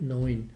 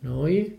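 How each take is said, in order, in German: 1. Das Wort endet mit einem n-Laut. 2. Das Wort endet ohne n-Laut. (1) "nicht 9" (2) "lassen Sie das N weg, die Franken"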